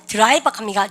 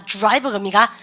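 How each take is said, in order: First: "드라이버" with a plain "deu" before the r; Koreanized DR. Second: "드라이버" starting like "joo-rai"; English DR sound. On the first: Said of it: "D하고 R 발음 있으면". ("드라이버"를 '드라이바'로 또렷이) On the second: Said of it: "주죠". ("드라이버"를 '주라이버'처럼 발음) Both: Shown as a demonstration.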